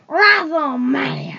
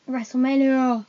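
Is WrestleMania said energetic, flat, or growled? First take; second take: growled; flat. First: The word is said in a deep, growling voice. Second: The word is said plainly, without extra energy. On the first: The speaker calls it right. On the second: The speaker calls it wrong.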